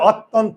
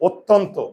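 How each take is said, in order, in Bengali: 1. প্রথম স্বরটি খোলা 'a' ধ্বনি। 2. প্রথম স্বরটি গোল 'o' ধ্বনি। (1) "আমি যদি বলি অত্যন্ত অ, সবাই হাসবে না?" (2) "আমরা উচ্চারণ করি কি? অত্যন্ত।"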